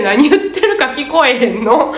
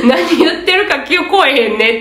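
First: Quoting confused examinees with a laugh; half-laughing, baffled question; laughing mock complaint. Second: Quoting the crowd with a chuckle; a bemused, laughing agreement; laughing mock grumble. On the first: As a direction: other test takers complaining about the echo, laughing. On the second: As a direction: examinees grumbling to each other, laughing. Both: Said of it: "って周りで".

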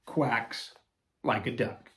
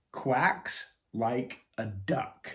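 First: Said in the usual way. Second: Slowly announcing the title, rising; slow title read. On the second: Shown as a demonstration. Host announcing the book title, slow and rising.

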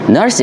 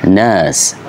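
First: "Nurse" with a clear r after the vowel, American style; American English. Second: "nurse" as /nəs/, no r, long central vowel; British accent. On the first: Teacher showing learners the American nurse, r pronounced. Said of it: "Nurse in American English". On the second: Teacher showing learners the British nurse, r dropped. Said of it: "but in British accent, you can't say". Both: Shown as a demonstration.

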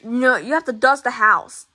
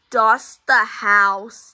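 First: Said in the usual way. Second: Slow, deliberate dust the house; slow emphatic order. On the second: Acted. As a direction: spell out the order word by word. Dad repeats the order slowly.

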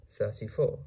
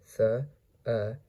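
First: Said in the usual way. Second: "Thirty-four" in separate sounds with pauses; sounded out. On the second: Shown as a demonstration. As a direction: break "Thirty-four" apart for a learner. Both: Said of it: "How to pronounce".

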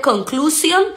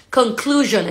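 First: "conclusión" with a hissed Spanish s; plain unvoiced S. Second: "conclusion" with a voiced zh for the s; vibrating S. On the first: Teacher showing learners what not to say, normal S. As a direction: say "conclusión" Spanish-style, ending "-syon". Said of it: "S normal, no". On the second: Teacher correcting learners' pronunciation, S vibrated. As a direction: buzz the s in "conclusion". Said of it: "la S tiene un poquito de vibración". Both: Shown as a demonstration.

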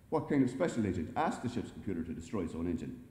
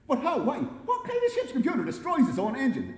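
First: Said in the usual way. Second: High, loud panicked questions; panicking. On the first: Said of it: "asked the computer". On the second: A narrator's reading. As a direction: fire off questions in a rising panic. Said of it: "He was now panicking".

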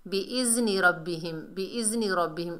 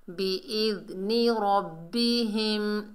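First: बिइज़्नि quick, with a buzzing z; wrong pronunciation demo. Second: बिइज़्नि slowly, as soft "bi-idh-ni"; correct soft dhal. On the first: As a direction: run बिइज़्नि रब्बिहिम off as "bi-iz-ni". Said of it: "इस तरह नहीं पढ़ना". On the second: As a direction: recite बिइज़्नि रब्बिहिम slowly with lisped dh. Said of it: "नरमी से अदा करना है जाल को". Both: Shown as a demonstration.

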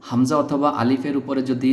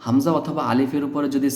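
The two takes are said the same way.

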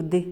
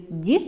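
First: Д as hard, unpalatalized "d"; short isolated Д with a dark release; hard Д, set apart; hard consonant. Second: Д as palatalized "d'"; short isolated Д with tongue raised; soft Д, like "dyi"; soft consonant. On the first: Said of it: "називається твердим приголосним". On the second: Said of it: "називається м'яким приголосним". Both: Shown as a demonstration.

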